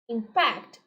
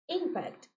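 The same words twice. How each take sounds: First: The stress is on the second syllable. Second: The stress is on the first syllable. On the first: It is used as a verb. "impact is the verb" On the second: It is used as a noun. "impact is the noun"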